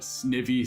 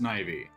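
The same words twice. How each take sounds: First: The ending does not sound like ivy. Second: The ending sounds like the word ivy. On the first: It is the preferred casual way to say it. "Snivy sounds better" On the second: It follows the pun on a snake made of ivy. "supposed to be pronounced Snivy"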